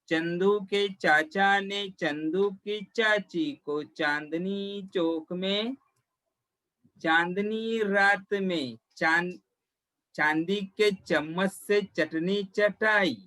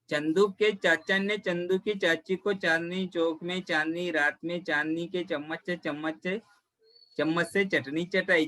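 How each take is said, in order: First: It is said slowly. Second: It is said fast.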